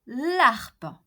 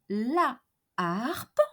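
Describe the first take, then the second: First: The vowel of la is dropped before harpe. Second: The vowel of la is kept before harpe. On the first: The speaker calls it wrong. "and not l'harpe" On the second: The speaker calls it right. "we say la harpe"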